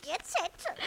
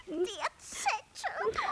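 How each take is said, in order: First: Said in the usual way. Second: Slow, crying plea with a rising end; drawn-out pleading. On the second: Acted. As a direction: stretch it out begging. Crow urges about the note.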